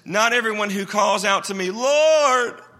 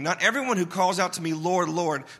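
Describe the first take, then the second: First: The word Lord is said loudly. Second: The word Lord is said at normal loudness.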